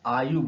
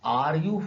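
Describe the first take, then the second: First: The r sound is dropped, words run together. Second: The r sound is clearly pronounced. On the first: The speaker calls it right. "आयु बोलते हैं" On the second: The speaker calls it wrong. "ऐसा नहीं बोलते"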